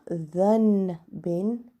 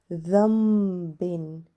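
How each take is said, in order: First: An n sound is heard before the b. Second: An m sound is heard before the b. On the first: The speaker calls it wrong. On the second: The speaker calls it right. "So we are going to pronounce it as"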